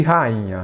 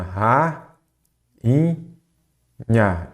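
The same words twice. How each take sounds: First: Said in the usual way. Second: "ra, in, nha" in three separate syllables, the middle one raised; long gaps between "ra, in, nha". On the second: Shown as a demonstration. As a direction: sound out "ra, in, nha" piece by piece. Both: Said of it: "quando separa em sílaba".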